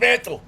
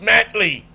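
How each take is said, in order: First: The name ends in a plain 'tl' sound. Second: The name ends with an added 'ee' sound. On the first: The speaker calls it right. "His name is Mantle" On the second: The speaker calls it wrong. "No, it's Mantley"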